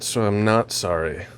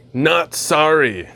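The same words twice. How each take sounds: First: Said in the usual way. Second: Drawn-out, punchy NOT SORRY, lightly voiced; slow, emphatic mock ad line; Seth Rogen impression. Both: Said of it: "Like Seth Rogen from that Reese's commercial".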